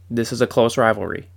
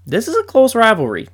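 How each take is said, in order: First: Said in the usual way. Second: Much higher, louder declaration; emphatic insistence. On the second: Real, not acted. Fan telling doubters the rivalry is close, emphatic. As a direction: proclaim it so nobody can argue.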